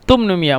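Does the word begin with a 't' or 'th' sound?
t. The word begins with a 't' sound. This is the Egyptian colloquial form. "ওই মিশিটা সাকে তা বলে, এই জন্য তুমনুমিয়া"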